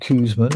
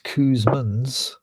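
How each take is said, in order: First: The name ends without an s sound. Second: The name ends with an s sound. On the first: The speaker calls it wrong. "which I keep incorrectly saying as the pronunciation" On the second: The speaker calls it right. "It's obviously Kuzmans"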